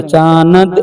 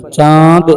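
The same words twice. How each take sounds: First: चानद with the न said apart as चा-नद; चानद spoken in two parts, not nasal; wrong split reading. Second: चांद with the नून only as nasal colour; nasal vowel. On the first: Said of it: "नहीं पढ़ेंगे". (चानद को अलग नून के साथ) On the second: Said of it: "नून को अलग से नहीं पढ़ेंगे". (चांद नाक से, नून की बू के साथ) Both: Shown as a demonstration.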